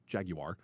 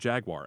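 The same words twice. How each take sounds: First: It is said with a British pronunciation. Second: It is said with an American pronunciation.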